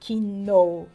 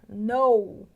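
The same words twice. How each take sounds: First: The initial K sound is pronounced. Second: The initial K sound is silent. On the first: The speaker calls it wrong. "A gente não fala" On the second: The speaker calls it right. "Olha só a pronúncia"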